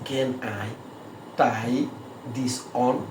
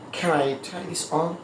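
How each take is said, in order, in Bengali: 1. প্রতিটি শব্দ আলাদাভাবে বলা হয়, বাংলা ধাঁচে। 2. শব্দগুলো দুটি জোড়া অংশে মিশে যায়। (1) "ব্যাঙ্গে ব্যাঙ্গে বলতেছি" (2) "বিদেশিরা কীভাবে বলবে? ... ক্যান আই একসাথে বলবে, ট্রাই দিস অন একসাথে বলবে"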